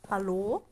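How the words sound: It is said in the speaker's natural voice.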